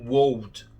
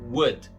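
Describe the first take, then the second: First: The O and L are both pronounced. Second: The O and L are left silent. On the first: The speaker calls it wrong. "Não é o would" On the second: The speaker calls it right. "E o mesmo vai valer pro would"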